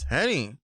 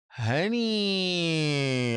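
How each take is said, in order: First: The word is said short and clipped. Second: The word is said long and drawn out. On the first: The matter is closed and the talk moves on. "If you're very curt about it... I say it like this" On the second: Everyone should notice someone was put in their place. "if I really am drawing it out"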